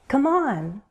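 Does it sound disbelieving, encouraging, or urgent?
encouraging. It sounds encouraging and supportive.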